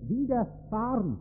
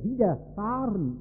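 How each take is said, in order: First: "widerfahren" set apart as a word to hear literally; "widerfahren" as wider-fahren, both parts distinct; literal emphasis. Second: Said in the usual way. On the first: Shown as a demonstration. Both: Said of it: "im buchstäblichen Sinne".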